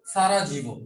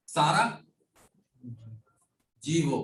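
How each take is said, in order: First: Said in the usual way. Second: Long pause between Sara and jivo; split Sarajevo. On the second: Shown as a demonstration. Teacher explains Bosnia's capital, Sarajevo split in two.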